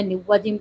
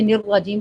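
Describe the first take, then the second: First: "نواجیم" with w where r belongs; waw replacing Ra. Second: "نراجیم" with a doubled heavy r; correct Ra. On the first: Teacher shows a forbidden error, w-sound "نواجیم". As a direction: swap the r for w in "نواجیم". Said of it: "نواجیم پڑھ دیں". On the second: Teacher contrasts right with wrong, heavy r in "نراجیم". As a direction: keep the r thick in "نراجیم". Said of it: "پڑھنے کی بجائے". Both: Shown as a demonstration.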